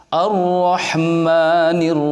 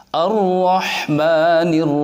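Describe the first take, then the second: The two takes are said the same way.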